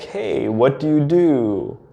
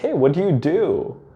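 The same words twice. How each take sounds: First: It is asked in a relaxed, plain way. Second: It is asked in a needy, validation-seeking way.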